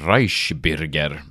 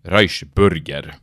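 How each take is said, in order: First: The vowel in bürger is a rounded y sound. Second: The vowel in bürger is a plain u sound. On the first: The speaker calls it right. "man vet jo at en tøddel uen uttales y" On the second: The speaker calls it wrong. "Ikke som TV2-nyhetene sa"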